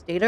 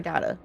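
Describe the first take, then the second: First: "data" said as DAY-ta. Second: "data" said as DAH-ta. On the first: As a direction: say "data" with a long AY. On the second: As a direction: say "data" with an open AH. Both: Shown as a demonstration. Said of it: "cannot decide on if it's data or data".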